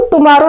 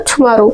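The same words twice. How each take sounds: First: Said in the usual way. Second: टुमारो starting with a breath-released "ch"-like t; soft-t TOMORROW. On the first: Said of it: "टुमारो नहीं पढ़ना है". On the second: Shown as a demonstration. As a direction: say टुमारो as "chu-maaro". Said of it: "क्या पढ़ना है?". (टुमारो को "छुमारो" जैसा बोलें)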